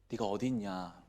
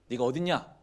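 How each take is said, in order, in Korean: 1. 슬프고 애원하는 말투로 말하고 있어요. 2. 화가 나고 거친 말투로 말하고 있어요. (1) "안타까움을 부르셨을 것 같아요" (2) "화가 나서?"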